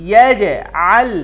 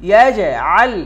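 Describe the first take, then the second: Both takes have the same delivery.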